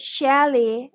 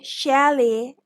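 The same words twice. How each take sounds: First: It is said the British way. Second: It is said the British way.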